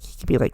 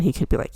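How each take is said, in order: First: He could be like breathed in a whisper; whispered aside. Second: Said in the usual way. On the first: Real, not acted. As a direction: drop to a whisper on the repeat. Repeats the phrase, second time hushed.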